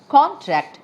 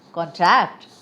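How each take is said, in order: First: CON-tract, stressed on the first syllable. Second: Con-TRACT, stressed on the second syllable. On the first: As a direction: say contract as a noun, strong "con". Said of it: "stress on the first syllable". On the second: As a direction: say contract as a verb, strong "tract". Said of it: "stress on the second syllable". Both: Shown as a demonstration.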